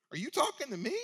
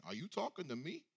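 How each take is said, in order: First: High, louder, incredulous rising question; defiant retort. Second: Light mock Italian tough-guy accent, a bit softer. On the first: Retold or imitated. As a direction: throw the challenge right back. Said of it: "Basically, she says". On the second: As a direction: play it like an Italian movie gangster. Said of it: "that Italian accent".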